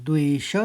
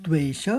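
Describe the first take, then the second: Both takes have the same delivery.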